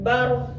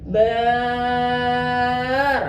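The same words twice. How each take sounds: First: The vowel in bar is kept short. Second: The vowel in bar is drawn out long. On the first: The speaker calls it right. "Harus bar" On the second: The speaker calls it wrong. "Kada boleh"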